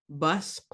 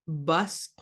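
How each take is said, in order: No difference in how they are said.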